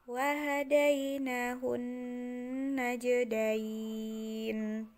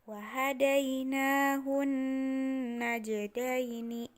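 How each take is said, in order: First: The phrase ends on a stopped n sound. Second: The phrase ends with a final i vowel. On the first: The reading stops at this point. "ketika kita akan mewakofkan" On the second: The reading continues without stopping. "ketika dia di tengah atau ketika kita tidak akan mewakofkan"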